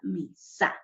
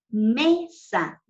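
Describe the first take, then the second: First: The stress is on the second syllable. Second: The stress is on the first syllable. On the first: The speaker calls it wrong. "no la palabra mesa" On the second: The speaker calls it right. "nos han enseñado a pronunciar la palabra mesa"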